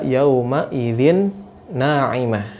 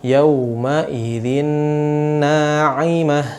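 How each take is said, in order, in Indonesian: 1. Huruf n tidak digabung dan tidak ditahan secara sengau. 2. Huruf n menyatu ke n berikutnya dan ditahan.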